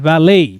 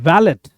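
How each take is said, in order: First: The word ends on a vowel, no 't'. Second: The word ends with a 't' sound. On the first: The speaker calls it right. "But it's वैले" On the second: The speaker calls it wrong. "Wrong pronunciation होता है वैलेट"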